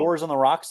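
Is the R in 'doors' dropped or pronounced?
pronounced. The R in doors is clearly pronounced. "you'll say"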